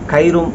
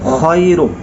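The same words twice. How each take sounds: First: The word begins with a hard k sound. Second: The word begins with a raspy kh sound. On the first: The speaker calls it wrong. "খ উচ্চারণ করতে পারে না, কাফ অথবা ক উচ্চারণ করে। খায়রুম এখানে বলা যাবে না" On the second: The speaker calls it right. "বলতে হবে খায়রুম"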